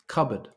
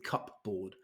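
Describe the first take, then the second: First: It does not sound like cup plus board. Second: It sounds like the words cup and board. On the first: The speaker calls it right. "Two syllables" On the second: The speaker calls it wrong. "I know the word cup, I can see, and I know the word board, so I'm going with cupboard"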